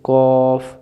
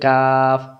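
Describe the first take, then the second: First: It sounds heavy, with rounded lips. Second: It sounds light, with an open mouth. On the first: The speaker calls it right. "মোটা করে পড়া" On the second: The speaker calls it wrong. "মুখটা ফাঁকা হয়ে গেল, তাহলে উচ্চারণ ভুল"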